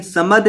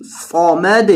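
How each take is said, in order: First: سمد with a thin, light s; wrong light s. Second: صمد with a thick, heavy sad. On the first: Teacher showing the wrong light sin. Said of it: "سمد نہیں". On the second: Teacher showing the correct heavy sad. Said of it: "صاد کو موٹا کریں گے". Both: Shown as a demonstration.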